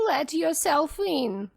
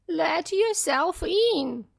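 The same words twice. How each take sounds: First: Lightly high fake granny; wolf calling out as grandmother. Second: Put-on high, slow old-lady voice; weak granny calling out; frail grandmother. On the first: Wolf in disguise inviting the girl in, a hint of old lady. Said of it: "called the wolf". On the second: Grandmother telling the visitor to come in, frail and slow. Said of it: "said the grandmother". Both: A narrator's reading.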